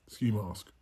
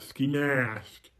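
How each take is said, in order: First: Said in the usual way. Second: Mock redneck twang; redneck accent. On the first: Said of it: "Why did I say it like that?". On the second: Shown as a demonstration. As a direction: say it like a redneck, mocking your own slip.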